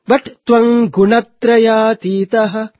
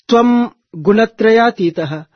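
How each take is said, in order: First: The sound before 'Gu' is an 'ng'. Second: The sound before 'Gu' is an 'm'. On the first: The speaker calls it right. "Ga becomes Nga" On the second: The speaker calls it wrong. "you don't chant as"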